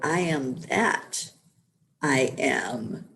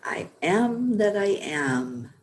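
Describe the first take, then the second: First: There is a pause after "that". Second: It is said without a pause after "that".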